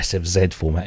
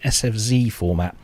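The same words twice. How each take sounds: First: The letter Z is pronounced 'zed'. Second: The letter Z is pronounced 'zee'.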